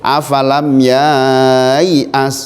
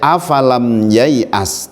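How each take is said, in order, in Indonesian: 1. Vokal setelah ya panjang. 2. Vokal setelah ya pendek. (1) "tidak boleh afalam yai'as, salah" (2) "Dibaca pendek"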